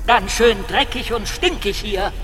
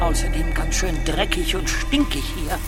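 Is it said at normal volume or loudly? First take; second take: loudly; normal volume. First: It is said loudly. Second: It is said at normal volume.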